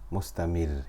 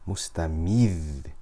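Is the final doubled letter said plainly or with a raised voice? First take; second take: plain; raised. First: The final letter is said plainly, without raised voice. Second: The voice rises slightly on the final doubled letter. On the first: It sounds like there is only one letter. The speaker calls it wrong. "we can't say mustamir" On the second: It shows the final letter is doubled. The speaker calls it right. "we have to raise our voice slightly"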